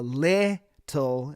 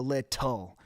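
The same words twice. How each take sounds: First: Little with the hard t in the middle punched; wrong stress. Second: Little with the weight on the final tul; stress on the ending. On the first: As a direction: hit the t in little, lit-TUL from the middle of the word. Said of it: "you really emphasize the little". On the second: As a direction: land the end of little, let the tul sound firm. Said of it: "emphasizing the tul". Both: Shown as a demonstration.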